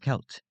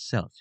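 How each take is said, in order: First: The word begins with a K sound. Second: The word begins with an S sound. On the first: The speaker calls it right. "the C is pronounced as a K sound" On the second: The speaker calls it wrong. "looking like it has a soft C"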